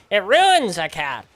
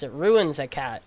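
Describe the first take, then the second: First: "It ruins a cat" slow and louder, leaning on ruins; mock neighbor, emphatic. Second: Said in the usual way. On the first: Teen repeats the neighbor's claim about the cat, slow louder mock. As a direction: drag out "ruins" like a mock old man. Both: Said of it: "That's what he's saying".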